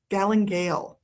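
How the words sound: It is said the British way, ending like 'gale'.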